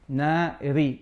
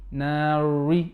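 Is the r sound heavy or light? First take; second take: light; heavy. First: The r is light and flat. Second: The r is heavy and thick. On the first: The speaker calls it right. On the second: The speaker calls it wrong. "they will say, for example, nari, nari. No"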